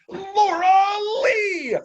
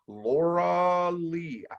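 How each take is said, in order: First: The name is said with lively excitement. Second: The name is said flatly, without excitement.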